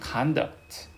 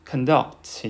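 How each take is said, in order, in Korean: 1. 강세는 첫 번째 음절에 있습니다. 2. 강세는 두 번째 음절에 있습니다.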